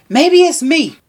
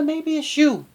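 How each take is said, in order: First: Said in the usual way. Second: Much softer, dropping the voice to turn it on Regina; pointed quiet aside. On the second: Shown as a demonstration. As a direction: slip the blame back at her, softly. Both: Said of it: "you know what, Regina?".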